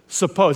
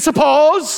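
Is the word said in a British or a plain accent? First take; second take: plain; British. First: It is said in the speaker's usual accent. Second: It is said in a British accent.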